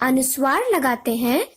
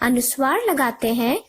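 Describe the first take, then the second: The two takes are said the same way.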